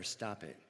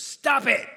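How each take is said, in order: First: Said in the usual way. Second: Sudden full-voice yell, higher and louder; Bob Newhart yell. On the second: Retold or imitated. Counselor suddenly yells at his fearful patient, loud shout. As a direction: blurt it out as a sharp shout. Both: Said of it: "He just yells at her".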